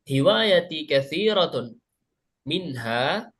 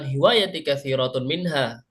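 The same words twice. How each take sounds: First: There is a pause before the last word. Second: The words run together without any pause. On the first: The speaker calls it right. "Cara bacanya ini berhenti di sini" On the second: The speaker calls it wrong. "bukan disambung, bukan hiwayati kathiratun minha. Bukan seperti itu"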